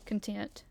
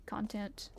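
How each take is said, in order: First: "Content" with a weak "kun" and the stress on TENT; con-TENT. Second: "Content" with a full "kon" and the stress on CON; CON-tent. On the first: Streamer trying out content as kun-TENT, stress on TENT. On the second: Streamer trying out content as KON-tent, stress on CON. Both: Shown as a demonstration. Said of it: "Is it pronounced content?".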